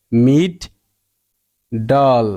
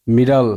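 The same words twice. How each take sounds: First: "মিড ডল" as two separate beats with a long pause between; split into syllables. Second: Said in the usual way. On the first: Shown as a demonstration. Teacher showing the short sound in middle, syllable by syllable. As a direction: say "মিড", stop, then a lower "ডল". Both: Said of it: "short সাউন্ডটা বজায় রাখার জন্য".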